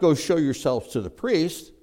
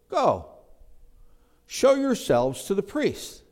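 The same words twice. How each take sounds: First: It runs straight on with no pause after go. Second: There is a pause after go.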